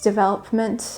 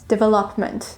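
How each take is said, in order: First: It is said in the standard way. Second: It sounds like 'devil up mint'. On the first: The speaker calls it right. "It's development" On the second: The speaker calls it wrong. "pronounce it the way you used to, as in devil up mint"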